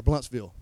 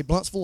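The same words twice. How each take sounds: First: "Bluntsville" with a full last syllable, BLUNTS-VILL; spelling pronunciation. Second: "Bluntsville" with a reduced last syllable, like BLUNTS-vul; local pronunciation. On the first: Preacher offering locals the other option, "Bluntsville" said as BLUNTS-VILL. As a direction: say "Bluntsville" with a clear "vill" at the end. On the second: Preacher asking locals about the town name, "Bluntsville" said as BLUNTS-vul. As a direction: say "Bluntsville" ending in a short, swallowed "vul". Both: Shown as a demonstration. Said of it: "Y'all say Bluntsville or Bluntsville?".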